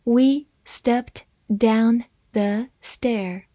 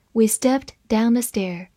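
First: Word-by-word, with pauses between; slow, measured model reading. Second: Said in the usual way. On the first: Shown as a demonstration. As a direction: read slowly for learners to follow. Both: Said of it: "慢慢来读".

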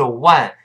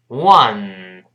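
First: "one" said as Mandarin wān, vowel too far forward; wrong ONE. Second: "one" with backed wah, ending in long nasal n; correct ONE. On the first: Teacher rejecting a learner error, wrong "one" like wān. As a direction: say a short fronted "one". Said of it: "不是one". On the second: Teacher modelling the sound, slow correct "one". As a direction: draw out "one" as wuh-nnn. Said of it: "这个声音往后走一点儿". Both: Shown as a demonstration.

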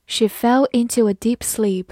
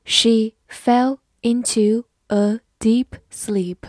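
First: Said in the usual way. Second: Slow, even reading pace; careful slow model reading. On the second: Shown as a demonstration. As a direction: read it slowly word by word. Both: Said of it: "好，慢慢来读。".

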